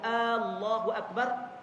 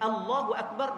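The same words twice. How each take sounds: First: The opening vowel is drawn out long. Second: The opening vowel is said short. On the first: It asks whether God is the greatest. The speaker calls it wrong. "memanjangkan lafaz a" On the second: God is the greatest. The speaker calls it right. "makna dia Allah Maha Agung"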